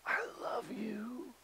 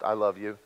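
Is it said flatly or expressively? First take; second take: expressively; flatly. First: It is said expressively, with feeling. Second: It is said flatly, without feeling.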